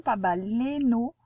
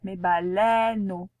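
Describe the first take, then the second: First: Baleineau said ba-le-no with a closed e; wrong pronunciation. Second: Baleino said slowly with an open è as in treize; correct pronunciation. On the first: Teacher warns the pupil, mispronouncing baleineau. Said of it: "Attention, pas baleineau". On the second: Teacher correcting the pupil, slow and careful baleino. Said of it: "avec le est de treize". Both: Shown as a demonstration.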